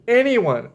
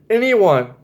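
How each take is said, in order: Both takes have the same delivery.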